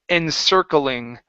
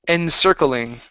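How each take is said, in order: The two takes are said the same way.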